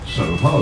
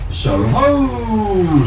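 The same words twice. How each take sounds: First: The word is said in a plain, ordinary voice. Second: The word is shouted out loudly like a cry. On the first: It is just the name of the area. The speaker calls it wrong. "you never say Soho" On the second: It recalls the old hunting cry behind the name. The speaker calls it right. "you say Soho, like that"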